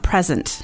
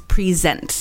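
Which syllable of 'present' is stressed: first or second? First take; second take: first; second. First: The stress is on the first syllable. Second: The stress is on the second syllable. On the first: It is the noun, a gift. The speaker calls it wrong. "the pronunciation of the verb is not present" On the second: It is the verb, to show. The speaker calls it right. "It's present"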